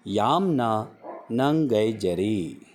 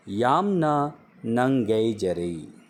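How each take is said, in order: First: यामना नंगेजरी repeated slowly, stress on यामना; slow careful repeat of यामना नंगेजरी; slow Manipuri repeat. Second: यामना नंगेजरी said slowly, each syllable clear; slow it down so learners catch यामना नंगेजरी; slow Manipuri demo. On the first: Teacher repeats यामना नंगेजरी slowly for learners. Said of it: "फिर से दोहराता हूँ". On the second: Teacher slowly pronounces यामना नंगेजरी for Hindi speakers. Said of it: "पढ़ा जाता है". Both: Shown as a demonstration.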